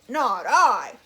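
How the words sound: It is said in a gruff dog voice.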